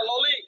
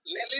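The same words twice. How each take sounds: First: ললি with an o sound first; corrected first vowel. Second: লেলি with an e sound first; wrong first vowel. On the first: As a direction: say ললি, opening on a rounded "lo". (ললি, প্রথমে ও-কার দিয়ে) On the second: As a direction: say লেলি, opening on "le" as in "lay". (লেলি, প্রথমে এ-কার দিয়ে) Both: Shown as a demonstration. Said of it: "লেলি না, ললি".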